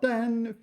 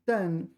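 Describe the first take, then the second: First: It is said with a high level tone. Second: It is said with a falling tone. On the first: It is used as a verb. "担 first tone is a verb" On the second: It is used as a noun. "担 fourth tone is a noun"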